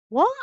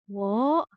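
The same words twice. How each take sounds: First: It is said in a surprised tone. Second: It is said in a confused, puzzled tone. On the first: The speaker is surprised. "it's showing surprise" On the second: The speaker does not understand.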